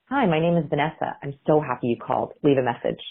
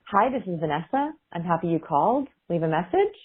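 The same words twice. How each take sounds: First: Assured falling ends on Vanessa, called and message; settled, confident greeting that steps down in pitch; downward inflection. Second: Questioning rise on Vanessa, called and message; slightly softened, uncertain rising phrase endings; uptalk, anxious. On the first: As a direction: land each phrase downward as a firm statement. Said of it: "if I were to use a downward inflection". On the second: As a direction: say each statement like an unsure question. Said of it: "I sound a little bit uncomfortable and anxious". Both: Shown as a demonstration.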